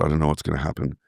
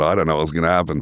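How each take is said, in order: First: The voice sounds fearful and anxious. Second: The voice sounds thrilled and excited. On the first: The unknown is something to dread. The speaker calls it wrong. "identify that as fear" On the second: The unknown is something to look forward to. The speaker calls it right. "a sense of excitement"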